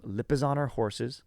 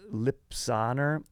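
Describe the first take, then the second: First: Lipizzaner said carefully as lip-uh-ZAH-ner; slowly fix it to Lipizzaner, every syllable sounded; careful, slow lip-uh-ZAH-ner horses; corrected pronunciation. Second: Lipizzaner said as lip-SAH-ner, the middle syllable dropped; a slow, stumbling Lipizzaner as lip-SAH-ner; mispronounced name. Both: Shown as a demonstration. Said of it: "I'm saying that wrong".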